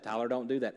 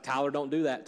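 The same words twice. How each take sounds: First: Gentler warning. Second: Firm warning, slightly raised; God warning Tyler. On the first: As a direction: ease off the warning. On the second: God warning Tyler, a firm raised caution. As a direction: caution him like a patient father. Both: Retold or imitated. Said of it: "Sometimes he's like".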